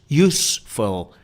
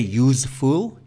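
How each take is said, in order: First: The last syllable has a short 'full' vowel. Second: The last syllable has a long 'fool' vowel. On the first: The speaker calls it right. "it's use, useful" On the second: The speaker calls it wrong. "we don't say useful"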